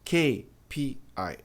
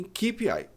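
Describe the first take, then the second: First: K P I said slowly as kay pee eye; correct pronunciation. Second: K P I said kee pee eye; the common wrong K P I; wrong pronunciation. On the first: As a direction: model K P I slowly. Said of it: "A pronúncia correta é". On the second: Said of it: "as pessoas dizem". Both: Shown as a demonstration.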